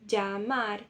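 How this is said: The double L sounds like dj. This is the accent of some other countries. "uma terceira pronúncia possível, né? Que é o som de D J"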